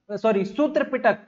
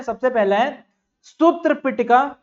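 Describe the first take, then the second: First: पिटक said with a short final k, not पिटका; सूत्र पिटक, closing cleanly on k; corrected pronunciation. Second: Says सूत्र पिटका with a final a, the mistaken way; सूत्र पिटका, ending on an added a; wrong pronunciation. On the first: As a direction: fix it to पिटक, without the trailing a. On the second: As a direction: slip into सूत्र पिटका, with a long a at the end. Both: Shown as a demonstration.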